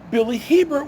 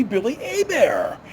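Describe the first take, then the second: First: Hebert said the English way, hard H and T sounded, HEE-bert; wrong anglicized pronunciation. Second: Hebert said the French way, silent H and T, a-BEAR; correct French pronunciation. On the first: Retold or imitated. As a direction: imitate the locals saying Hebert as HEE-bert. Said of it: "They're pronouncing it Billy Hebert". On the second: Shown as a demonstration. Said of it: "when it should be Billy Hebert".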